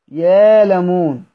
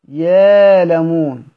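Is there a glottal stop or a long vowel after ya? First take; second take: long vowel; long vowel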